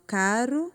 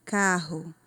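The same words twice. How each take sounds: First: "caro" with a tongue-tap R, ending on a rise; single tapped R. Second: "carro" with an H-like R, KA-ho; double guttural R. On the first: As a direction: flick the tongue once on the R of "caro". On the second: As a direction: keep the tongue down on the RR of "carro". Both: Shown as a demonstration. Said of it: "Como fica diferente".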